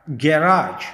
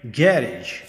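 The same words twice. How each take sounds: First: गैराज with a long final "raazh", stressed at the end; American garage. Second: गैरेज clipped, stressed on the first syllable; British garage. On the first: Teacher demos American गैराज, stress at the end. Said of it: "American में". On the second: Teacher demos British गैरेज, clipped end. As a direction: say गैरेज short, "GA-rej". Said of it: "British में गैरेज". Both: Shown as a demonstration.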